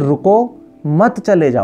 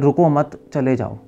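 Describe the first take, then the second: First: The pause comes after 'रुको'. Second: The pause comes after 'मत'.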